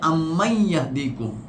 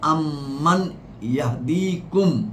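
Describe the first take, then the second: First: The n merges into a y sound. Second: A clear n sound ends the first word. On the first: "ব্যাকরণের কারণে উচ্চারণ হচ্ছে" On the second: "এই আয়াতটা শুরু হচ্ছে"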